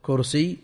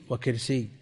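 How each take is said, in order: First: "كرسي" with u after the k, kursiyy; damma on kaf. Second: "وكرسي" with i after the k, wa-kirsiyy; kasra on kaf. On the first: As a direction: say "كرسي" as kursī, with a short u. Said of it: "ضم الكاف". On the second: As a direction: say "وكرسي" as wa-kirsī, with a short i. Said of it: "وكسرها". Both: Shown as a demonstration.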